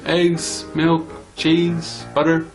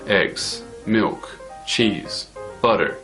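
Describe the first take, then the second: First: The pitch stays level on every list item. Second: The pitch falls on every list item. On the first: The speaker calls it right. "It's just going across, it's not going down" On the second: The speaker calls it wrong. "If it went down, it would sound like"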